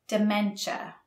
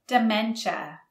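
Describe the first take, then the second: No difference in how they are said.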